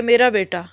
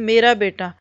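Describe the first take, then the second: First: A gentle, affectionate "मेरा बेटा" with the weight on "मेरा"; lightly tender "मेरा बेटा", stress on "मेरा" and falling at the end; said lovingly. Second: A fond, understated "मेरा बेटा" that leans on "मेरा"; a parent's gentle "मेरा बेटा" with a falling end; said lovingly. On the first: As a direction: say "मेरा बेटा" like a fond parent to a child. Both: Shown as a demonstration. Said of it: "बहुत प्यार से कहें".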